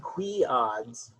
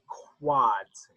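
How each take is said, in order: First: The two parts are said as separate words. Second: The two parts are run together into one word. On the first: The speaker calls it wrong. "but it doesn't sound right" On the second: The speaker calls it right. "It would be quads"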